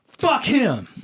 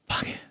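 First: It is said in a normal, forceful voice. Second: It is said in a soft ASMR whisper.

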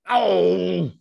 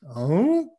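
First: It is said in an upset way. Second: It is said in a confused way.

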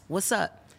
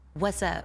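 First: It is said in an agitated tone. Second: It is said in a calm tone.

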